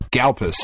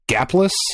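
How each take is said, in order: First: The L sound comes before the P. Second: The L sound comes after the P. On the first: The speaker calls it wrong. "It's not Galpus" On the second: The speaker calls it right. "Isn't it Gaplus?"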